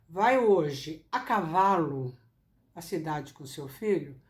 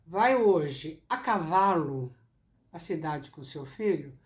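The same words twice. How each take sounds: First: The word cavalo carries the strongest stress. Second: The word cavalo carries the strongest stress.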